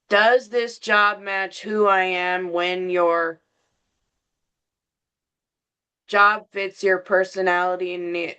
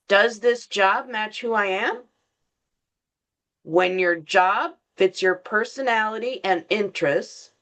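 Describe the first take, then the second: First: It runs on without a pause after 'am'. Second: There is a pause after 'am'.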